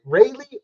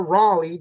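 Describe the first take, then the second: First: Raleigh said as RAY-lee; first pronunciation option. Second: Raleigh said as RAH-lee; second pronunciation option. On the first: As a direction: say Raleigh with a long "ay" up front. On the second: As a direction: say Raleigh with an open "ah" up front. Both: Shown as a demonstration. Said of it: "Is it Raleigh or Raleigh".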